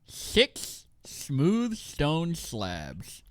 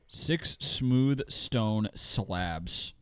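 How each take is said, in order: First: The s sounds are said with a lisp. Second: The s sounds are said clearly. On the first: "Do it with the list" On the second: "Imagine I had a lisp"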